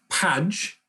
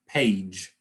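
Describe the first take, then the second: First: The vowel is short, like in badge. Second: The vowel is long, saying its name. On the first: The speaker calls it wrong. "it's not page" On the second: The speaker calls it right. "we change it to the long sound"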